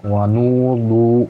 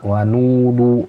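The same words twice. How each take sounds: Both takes have the same delivery.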